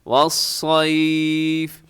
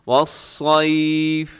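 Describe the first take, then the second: The two takes are said the same way.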